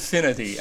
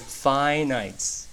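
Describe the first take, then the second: First: It is said with a short first vowel. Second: It is said with a long first vowel. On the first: The speaker calls it wrong. "注意这个单词别读错了，不是finity 啊" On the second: The speaker calls it right. "是finite"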